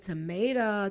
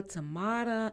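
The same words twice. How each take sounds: First: "Tomato" with a long a as in may; long-a pronunciation. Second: "Tomata" with a broad ah in the middle; broad-a pronunciation. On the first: Host kidding about name pronunciations, "Tomato" said tuh-MAY-tuh. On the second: Host kidding about name pronunciations, "Tomata" said tuh-MAH-tuh. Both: Shown as a demonstration. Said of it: "I am kidding".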